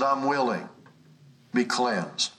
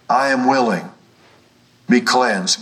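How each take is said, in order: First: Said in the usual way. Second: Louder, forceful quoted declaration; emphatic declaration. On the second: Retold or imitated. Preacher quoting Jesus to assure the sick, emphatic and loud. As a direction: drive each phrase home loudly, with pauses.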